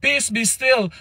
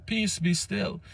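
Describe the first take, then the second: First: "Peace" hit high and firm, "be still" falling; firm command. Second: Hushed quote. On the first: Jesus rebuking the wind and the waves, commanding. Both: Acted. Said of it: "King James and them say".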